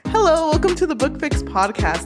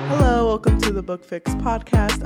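First: It is said with lively, enthusiastic energy. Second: It is said flatly, low in energy.

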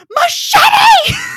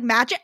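First: It is said as three syllables, ending in 'tee'. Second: It is said as two syllables, like 'match it'. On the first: The speaker calls it right. "it's fucking machete" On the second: The speaker calls it wrong. "I read this word and I was like, match it?"

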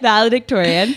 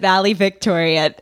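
First: The middle syllable is said with a d sound. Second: The middle syllable is said with a v sound. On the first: The speaker calls it right. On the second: The speaker calls it wrong.

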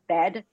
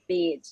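First: The E vowel is short and plain. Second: The E vowel is held long and sharp.

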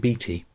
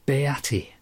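First: The name is said with two syllables. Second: The name is said with three syllables. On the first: "he doesn't always say Beatty" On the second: "He sometimes seems to put an extra syllable in there. It's kind of Beatty. It almost sounds like deity"

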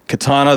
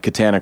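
First: The middle vowel sounds like the Japanese sword word. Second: The middle vowel sounds like the vowel in banana. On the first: This is how the rest of the world says the name. "is it like Katana the sword" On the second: This is how the family says the name. "why did he pronounce it that way?"

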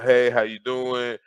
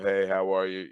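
First: It is said in an upbeat, energetic way. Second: It is said in a lax, low-energy way.

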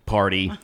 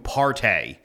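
First: The word ends with a plain, ordinary vowel. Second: The word ends with a drawn-out, slangy vowel.

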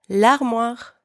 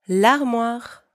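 The two takes are said the same way.

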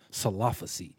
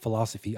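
First: The word begins with an S sound. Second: The word begins with an F sound. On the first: The speaker calls it wrong. "I kept saying salophacy" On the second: The speaker calls it right. "It was a philosophy"

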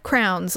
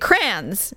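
First: The word is said as 'crowns'. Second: The word is said as 'crayons'. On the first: The speaker calls it wrong. "he calls them crowns" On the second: The speaker calls it right. "now say crayons"

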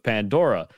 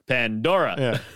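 First: It is said in the speaker's ordinary voice. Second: It is said in a put-on imitation voice. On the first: "Every time I read something out in the script" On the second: "But every time in my head, I go"

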